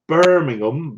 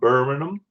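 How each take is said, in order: First: It is said in a West Country accent. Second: It is said in a local Birmingham accent.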